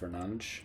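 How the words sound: The name is said with a Portuguese pronunciation. The speaker calls it right.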